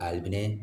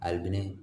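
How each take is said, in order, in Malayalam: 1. പേരിന്റെ അവസാനം നീട്ടി, ദീർഘമായി പറയുന്നു. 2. പേരിന്റെ അവസാനം നീട്ടി, ദീർഘമായി പറയുന്നു.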